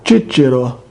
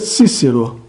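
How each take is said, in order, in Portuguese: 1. Lê-se na pronúncia latina eclesiástica. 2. Lê-se na pronúncia latina tradicional. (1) "Pronúncia eclesiástica romana" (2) "Pronúncia tradicional"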